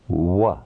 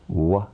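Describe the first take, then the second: No difference in how they are said.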